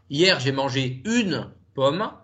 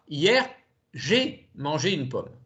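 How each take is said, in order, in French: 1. Le mot "une" est accentué. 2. Le mot "j'ai" est accentué. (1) "si j'accentue le mot une" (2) "Si j'accentue le mot j'ai"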